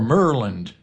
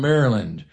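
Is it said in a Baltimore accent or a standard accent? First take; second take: Baltimore; standard. First: It is said in a local Baltimore accent. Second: It is said in a standard accent.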